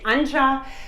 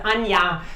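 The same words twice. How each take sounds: First: The name is said the English way. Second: The name is said the German way. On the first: "English-speaking people, they say Anja" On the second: "That's how it's pronounced in German"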